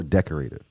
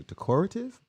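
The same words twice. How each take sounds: First: Decorative as DEC-o-ray-tive; decorate-style pronunciation. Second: Decorative as de-COR-ative; stress on second syllable. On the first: Host offering viewers the other option, decorative said DEC-o-ray-tive. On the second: Host offering viewers one option, decorative stressed de-COR-ative. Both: Shown as a demonstration. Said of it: "Is it de-, decorative or decorative".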